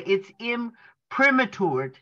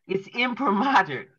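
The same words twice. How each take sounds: First: "imprimatured" said slowly as im-prim-a-TOORD; mispronounced word. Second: "imprimatur" said im-pri-MAH-ter; corrected pronunciation. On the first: Reader attempts an unfamiliar word, mispronouncing "imprimatured" as im-prim-a-TOORD. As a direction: stumble into "imprimatured" with a long TOOR ending. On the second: Reader repeats the doctor's correction, saying "imprimatur" as im-pri-MAH-ter. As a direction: stress the MAH in "imprimatur", light "ter" ending. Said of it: "I'm sorry. Thank you, Doc". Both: Real, not acted.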